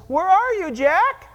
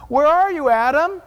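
First: Loud, higher call to someone hiding. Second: Loud call into the garden. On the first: God calls out to a hiding sinner, loud higher call. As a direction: shout the name into the bushes. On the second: God calls out to hiding Adam, loud call. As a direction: call out across the trees. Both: Acted.

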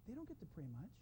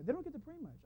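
First: Very soft, hushed imitation of a little boy; cute child confiding. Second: Put-on soft, higher little-boy voice; cute child aside. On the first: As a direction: murmur it like a small boy's secret. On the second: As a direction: imitate a small boy confiding, pitched up. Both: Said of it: "It was so cute how he said it".

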